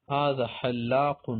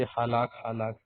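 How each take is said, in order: First: حلاق slowly with double l; standard Arabic pronunciation. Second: حلاق as short "halak", single l; light "ha-lak" for حلاق; colloquial Arabic pronunciation. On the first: Teacher presenting the word for barber, حلاق slow and full. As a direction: stretch حلاق out, q at the end. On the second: Teacher quoting everyday Arabic speakers, حلاق as light "halak". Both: Shown as a demonstration. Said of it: "عام عربی میں لوگ بولتے".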